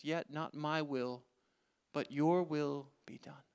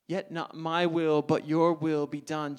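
First: Soft, slow prayer of surrender; quiet surrender. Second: Slower, stress on my and your; emphatic repeat. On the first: Acted. Jesus to God in the garden, a soft slow yielding. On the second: Shown as a demonstration. Preacher to the congregation, a slow emphatic repeat. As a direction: give the line again with weight.

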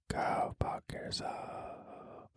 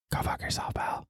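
First: Drawn out, very slow whisper; slow teasing whispered curse; slow mock whisper. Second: Hushed unvoiced insult; teasing whispered curse at a friend; mock whisper. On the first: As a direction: stretch the whisper out, menacing in jest. Repeated mock insult, slower. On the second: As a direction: whisper it like a joke threat.

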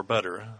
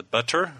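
First: Everyday American "butter", T softened to D; D sound in "butter". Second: "butter" with a clearly sounded T; crisp T in "butter". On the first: Reader checking the word with co-host, "butter" said with a D. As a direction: say "butter" like "budder". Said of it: "we retain a lot of D's". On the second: Reader checking the word with co-host, crisp T in "butter". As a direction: say "butter" carefully, T fully pronounced. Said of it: "if we say letter or butter". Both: Shown as a demonstration.

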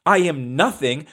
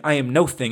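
First: Said in the usual way. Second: "no thing" as two separate words, stress on "no"; I am "no" "thing", the two words kept apart; no thing, split. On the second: Shown as a demonstration. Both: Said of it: "I'm really saying".

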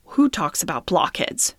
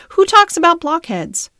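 First: Said in the usual way. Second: Indignant repeat. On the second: Acted. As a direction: question pushed up high and loud, stress on talks. Merrylegs repeats the question, louder.

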